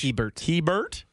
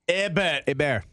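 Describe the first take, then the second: First: The name starts with an audible H sound. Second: The name starts with a vowel, no H sound. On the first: The speaker is not from the area. "Do I have to say the H?" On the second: This is the local French way of saying it. "Why do they say it like that? It's French"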